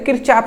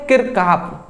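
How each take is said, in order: First: The name is said with a 'ch' sound. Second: The name is said with a 'k' sound. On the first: This is the easier everyday form. "हमें हमारे लिए easy रहता है तो किरचाफ हम कहते हैं" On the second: This is the person's actual name. "But उसका नाम क्या है"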